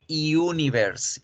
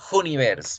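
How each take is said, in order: First: It begins with a y glide. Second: It begins without a y glide. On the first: The speaker calls it right. "van a decir universe" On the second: The speaker calls it wrong. "No van a decir universe"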